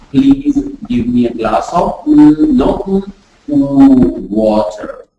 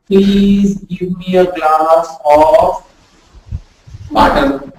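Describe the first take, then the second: First: "water" started from a rounded ooh. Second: "water" said wrongly as vater with a bitten lip v; slow request, then "water" with a v sound. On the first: Teacher showing students the correct "water". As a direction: say ooh first, then "water" with rounded lips. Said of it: "If you say, "Ooh". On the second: Teacher showing students how not to say water. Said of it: "You cannot say". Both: Shown as a demonstration.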